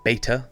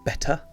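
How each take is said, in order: First: The first vowel is long, the American way. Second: The first vowel is short, as in 'bet'.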